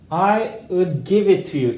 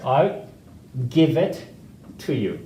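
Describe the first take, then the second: First: "I would" is said fully as two words. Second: "I would" is shortened to a quick "I'd". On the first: The speaker calls it wrong. "이렇게 안 하고" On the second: The speaker calls it right. "이것도 세 박자를 만들어요"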